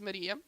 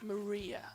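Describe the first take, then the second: First: The name is said in a Portuguese accent. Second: The name is said in an English accent.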